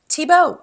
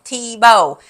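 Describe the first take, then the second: First: The name is said in a French accent. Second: The name is said in a Southern US accent. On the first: The speaker calls it right. "or however you would say it in French" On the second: The speaker calls it wrong. "When I say it with my southern accent, it sounds like Thibaut"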